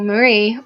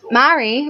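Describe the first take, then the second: First: Marie as muh-REE, second syllable strong; alternative pronunciation of Marie. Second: Marie as MAH-ree, first syllable strong; first pronunciation of Marie. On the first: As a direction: shorten the first vowel of Marie, stress the end. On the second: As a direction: say Marie like "marry", voice raised. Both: Shown as a demonstration. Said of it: "or Marie".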